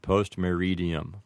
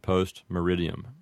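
First: It is pronounced the classical Latin way. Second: It is pronounced the American English way. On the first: "it might sound like ante-meridium and post-meridium" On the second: "with an Americanized pronunciation would be anti-meridium and post-meridium"

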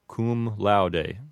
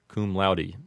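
First: It is said with classical Latin vowels. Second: It is said with Americanized vowels. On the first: "a correct Latin pronunciation" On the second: "the one we commonly hear"

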